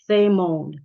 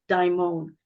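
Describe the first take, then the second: First: The word begins with a th sound. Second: The word begins with a d sound. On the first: The speaker calls it right. "it's more like a th, th sound. Uh, so the word is thamon" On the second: The speaker calls it wrong. "some philosophy classes say daimon"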